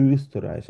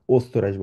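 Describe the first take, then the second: First: Österreich with a rounded ö at the start; umlaut pronunciation. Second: Österreich with a plain o, "ostorais"; without umlaut. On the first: Teacher showing the umlaut, Österreich starting on long rounded ö. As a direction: round the lips for the first vowel of Österreich. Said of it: "যেহেতু umlaut আছে". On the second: Teacher showing it as if no umlaut, Österreich as "ostorais". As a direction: open Österreich on an unfronted back o. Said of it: "যদি umlaut না থাকতো". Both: Shown as a demonstration.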